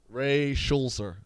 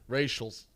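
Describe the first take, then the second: First: The name is read slowly and carefully. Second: The name is read quickly, run together.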